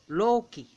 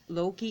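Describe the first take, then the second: First: The o sound is drawn out and emphasized. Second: The o sound is said plainly, not emphasized. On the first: The speaker calls it right. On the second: The speaker calls it wrong.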